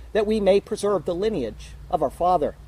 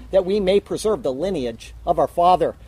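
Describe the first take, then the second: No difference in how they are said.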